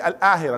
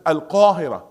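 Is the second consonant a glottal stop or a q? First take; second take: glottal stop; q. First: The word has a glottal stop after al. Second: The word has a deep q sound after al. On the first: The speaker calls it wrong. "They didn't say" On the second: The speaker calls it right. "This is"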